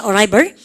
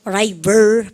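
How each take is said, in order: First: Said in the usual way. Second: ARRIVAL split into arri-VAL, last syllable stretched; syllable-by-syllable model pronunciation. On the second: Shown as a demonstration. Teacher giving the noun for arrive, ARRIVAL pronounced slowly in syllables. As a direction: say ARRIVAL in drawn-out pieces. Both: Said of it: "발음을 갖다 붙여".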